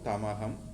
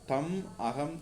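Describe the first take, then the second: First: The two words run together as one. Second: The two words are said separately.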